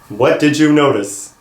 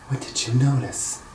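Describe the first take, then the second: First: The question is said at a louder volume. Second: The question is said at a quieter volume.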